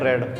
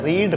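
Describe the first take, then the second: First: The vowel is a short 'e' sound. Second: The vowel is a long 'ee' sound. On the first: This is the past-participle form. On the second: This is the present-tense form. "बोला जाता है रीड"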